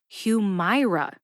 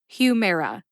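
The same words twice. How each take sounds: First: The middle syllable is said as it is spelled. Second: The middle syllable sounds like the word mare. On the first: The speaker calls it wrong. "Humira is not pronounced the way it looks. It looks like Humira" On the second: The speaker calls it right. "mare, like a female horse"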